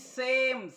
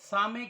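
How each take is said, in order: First: It is said as one syllable with 'ay'. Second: It is said as two syllables with 'ah'. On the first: The speaker calls it right. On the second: The speaker calls it wrong.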